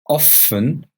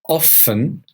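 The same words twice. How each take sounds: No difference in how they are said.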